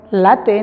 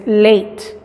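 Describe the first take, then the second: First: Late said as Spanish "la-te", both vowels spoken; the wrong way: late read letter by letter as "la-te". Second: Late said as "leit", silent final e; the right way: late as "leit"; correct pronunciation. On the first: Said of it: "no decimos". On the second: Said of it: "es late". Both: Shown as a demonstration.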